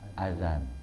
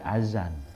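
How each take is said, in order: First: The middle consonant is a voiced th sound. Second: The middle consonant is a z sound. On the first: The speaker calls it right. "Tapi yang benar apa ya? ... Zal" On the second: The speaker calls it wrong. "pakai zai"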